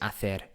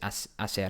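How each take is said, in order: First: The middle consonant is a lisped th sound. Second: The middle consonant is a plain s sound. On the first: This is the way it is said in Spain. "the Castilian lisp, which is what I'm currently using" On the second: This is the way it is said in South America and Mexico. "more common in, in South America"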